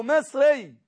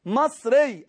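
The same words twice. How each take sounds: First: "مصري" said slowly as "misri"; misri pronunciation. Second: "مصري" said slowly as "masri"; masri pronunciation. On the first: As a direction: closer i-like vowel in the first syllable of "مصري". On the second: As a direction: open a vowel in the first syllable of "مصري". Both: Shown as a demonstration. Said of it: "نسبت أنا نفسي لمصر".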